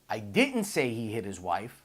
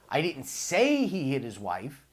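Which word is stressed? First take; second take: didn't; say. First: The word "didn't" carries the stress. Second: The word "say" carries the stress.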